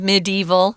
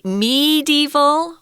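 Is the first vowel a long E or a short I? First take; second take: short I; long E. First: The first vowel is a short I sound. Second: The first vowel is a long E sound. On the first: "the short I" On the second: "with a long E sound"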